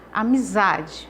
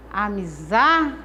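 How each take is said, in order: First: Said in the usual way. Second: "Amizade" slowed right down, leaning hard on "za"; teacher stretching "Amizade" to show the strong "za"; stress on za. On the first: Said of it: "eu pronuncio za com mais intensidade". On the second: Shown as a demonstration. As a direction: draw out the "za" in "Amizade" with more force. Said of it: "eu pronuncio za com mais intensidade, com mais força".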